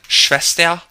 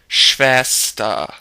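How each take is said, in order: First: The final R is sounded as a consonant. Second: The final R sounds like a soft ah. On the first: The speaker calls it wrong. "technically you could say it like Schwester, but they don't really say that" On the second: The speaker calls it right. "it's just pronounced like ah"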